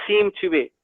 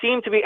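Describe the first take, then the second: First: "seem to be" set apart and deliberately emphasized; emphasis on SEEM. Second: Said in the usual way. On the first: Shown as a demonstration. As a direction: lean on "seem" as a careful caveat. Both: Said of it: "let me emphasize".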